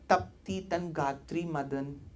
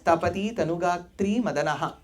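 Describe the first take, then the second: First: Short vowels are dropped, Hindi-style. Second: Every short vowel is fully pronounced. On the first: The speaker calls it wrong. "you can't speak Sanskritam like Hindi" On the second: The speaker calls it right. "So it's"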